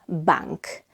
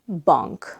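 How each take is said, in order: First: The vowel is very open, like English A. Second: The vowel is between open A and O. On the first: The speaker calls it wrong. "it's not bank" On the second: The speaker calls it right. "It's between the two"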